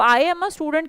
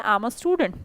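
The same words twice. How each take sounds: First: I am is said fully as two words. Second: I am is contracted into one syllable. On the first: "आई एम a student कहने की बजाय" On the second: "आप बोले"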